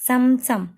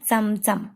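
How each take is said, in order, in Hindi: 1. यह शब्द मराठी तरीके से बोला गया है। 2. यह शब्द मराठी तरीके से बोला गया है।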